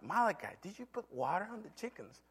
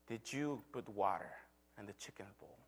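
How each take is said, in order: First: High, soft retold question; questioning father. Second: Low, very soft, fading question; quiet retold last check, falling at the end; hushed questioning. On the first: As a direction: ask the child lightly, pitch lifted. Father repeats question to son. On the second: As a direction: ask gently, letting the voice sink away. Father asks one final time.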